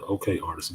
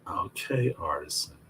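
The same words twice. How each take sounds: First: It is said in a plain voice. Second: It is said in a sultry voice.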